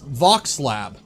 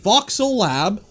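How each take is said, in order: First: The name is said with two syllables. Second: The name is said with three syllables. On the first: The speaker calls it right. "It's Vox Lab. There's no two L's" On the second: The speaker calls it wrong. "I've been saying this wrong"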